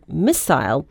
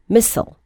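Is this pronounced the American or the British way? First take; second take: British; American. First: It is said in a British pronunciation. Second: It is said in an American pronunciation.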